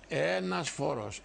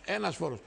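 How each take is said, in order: First: "Ένας φόρος" said slowly, stress on Ένας; "Ένας" held long and falling; slow emphatic. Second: Said in the usual way. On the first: Real, not acted. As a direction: spell out "Ένας φόρος" word by word.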